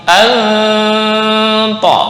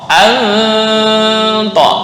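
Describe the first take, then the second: No difference in how they are said.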